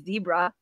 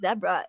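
First: Zebra's first syllable sounds like 'zee', not rhyming. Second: Zebra's first syllable sounds like 'deb', rhyming. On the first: The speaker calls it wrong. "It's not Deborah the zebra. That doesn't rhyme" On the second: The speaker calls it right. "it's Deborah the zebra"

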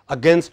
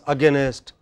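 First: The word is said without an added sound. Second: An extra sound is added inside the word.

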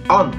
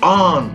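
First: The word is said short and quick. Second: The word is stretched out long. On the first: "on じゃなくて" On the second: "ここで長く伸ばす"

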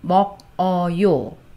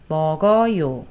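First: The syllables are said separately, with a break. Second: The final consonant links smoothly into the vowel. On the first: The speaker calls it wrong. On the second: The speaker calls it right.

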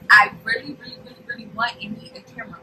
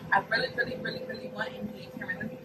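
First: The sentence is said at a louder volume. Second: The sentence is said at normal volume.

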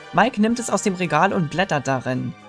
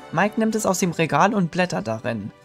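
Both takes have the same delivery.

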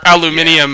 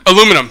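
First: It is said in a British pronunciation. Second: It is said in an American pronunciation.

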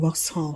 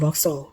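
First: The name is said the way Thai speakers say it. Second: The name is said the way English speakers say it. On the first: This is how locals usually say it. "บ้านเราอาจจะออกเสียง" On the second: This is how foreigners say it. "แต่ว่าฝรั่งพูดออกเสียงตัว X ควบคำว่าหอก็จะเป็น"

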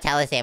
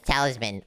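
First: The word ends with a 'sam' sound. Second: The word ends with a 'man' sound. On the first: The speaker calls it wrong. "I think it's not Talisam" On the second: The speaker calls it right. "it's Talisman"

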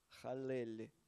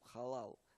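First: The second vowel is an 'e' sound. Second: The second vowel is an 'a' sound. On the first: The speaker calls it right. "Но на самом деле это халель" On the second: The speaker calls it wrong. "он говорил халал"

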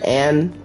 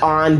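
First: The vowel is a flat 'a' sound. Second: The vowel is an open 'ah' sound. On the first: This is how the speaker says the name. "I pronounce it like Anne" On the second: This is how others say the name. "They say it like on"

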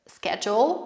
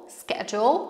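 Both takes have the same delivery.

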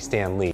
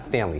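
First: The name is said as two separate words. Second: The name is run together as one word. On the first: The speaker calls it right. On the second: The speaker calls it wrong. "not Stanley"

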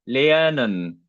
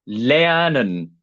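The two takes are said the same way.

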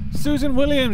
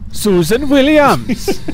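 First: It is said in the speaker's ordinary accent. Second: It is said in a Welsh accent.

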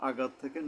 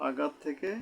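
No difference in how they are said.

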